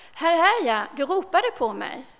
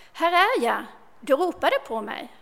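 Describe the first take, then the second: The two takes are said the same way.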